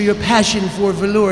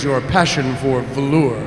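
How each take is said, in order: First: The voice is pitched noticeably higher. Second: The voice is pitched fairly low. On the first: The character sounds more like a lizard. The speaker calls it right. "he should ha- have a higher pitched voice" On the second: The character does not yet sound like a lizard. The speaker calls it wrong. "that doesn't sound lizardy enough"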